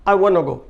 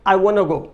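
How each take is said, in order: First: It is said fast with want to merged. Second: The same.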